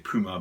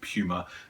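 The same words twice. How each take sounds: First: It is said in an American accent. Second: It is said in a British accent.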